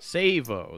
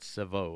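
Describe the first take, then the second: First: The name is said without a French pronunciation. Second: The name is said with a French pronunciation. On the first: This is how the owner says it. "That's right" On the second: This is how the host would have guessed it. "I would have said it the French way"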